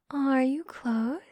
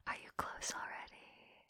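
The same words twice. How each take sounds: First: Slow, drawn-out teasing question; slow voiced question. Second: Soft taunting whisper. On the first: Teasing her partner, slowly asking aloud. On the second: Acted. Teasing her partner, whispering the question. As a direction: breathe the question into his ear. Asking partner, contrast with next.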